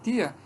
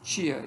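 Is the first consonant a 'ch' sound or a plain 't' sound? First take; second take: t; ch. First: The first consonant is a plain 't' sound. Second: The first consonant is a 'ch' sound. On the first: "essa variação che e te" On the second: "essa variação che e te"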